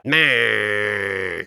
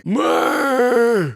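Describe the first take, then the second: First: Low, strangled creature bleat; choking griffin. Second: Choking griffin. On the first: Fireplace answers host in a choked low creature bleat. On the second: Fireplace answers host in a high choked creature squawk. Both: Pretend. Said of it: "that guy sounded like a griffin who'd been choking on yarn balls".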